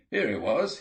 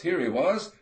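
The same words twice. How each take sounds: First: A bit higher and louder, eager; first cry of discovery, still held back; excited whoop. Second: Much higher and louder, jubilant; loud whoop. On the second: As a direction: shout out the find in triumph. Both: A narrator's reading. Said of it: "let out a whoop".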